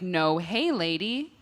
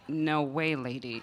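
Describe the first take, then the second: First: The middle word begins with an h sound. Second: The middle word begins with a w sound. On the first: "when I pulled it up, I was like" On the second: "when I met her, she was like"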